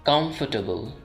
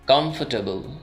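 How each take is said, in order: First: The r sound is left silent. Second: The r sound is left silent.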